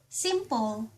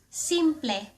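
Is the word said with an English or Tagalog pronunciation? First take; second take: English; Tagalog. First: The word is said with an English pronunciation. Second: The word is said with a Tagalog pronunciation. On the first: "the only difference is the pronunciation" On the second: "In Tagalog"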